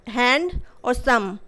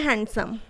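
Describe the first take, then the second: First: hand और सम slowly, in two separate beats; broken into syllables. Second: Said in the usual way. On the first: Shown as a demonstration. Teacher showing two syllables in handsome, hand और सम pulled apart. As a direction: split the word after hand, then give सम alone. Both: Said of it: "word को तोड़ के देख लेना".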